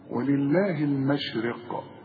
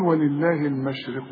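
First: The final q is stopped with an echoing bounce. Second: The q flows into the next word without bounce. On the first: The reciter pauses on this word. "فإذا وقفت هنا هقول إيه؟" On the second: The reciter continues without pausing. "وحوصل ما عنديش قلقلة بقى"

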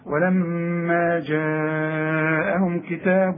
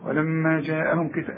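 First: The vowel after the jeem is lengthened. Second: The vowel after the jeem is short. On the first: The speaker calls it right. "ده المد الواجب لازم" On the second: The speaker calls it wrong. "مش تقول لي ولما جاءهم كتاب، لا لا لا"

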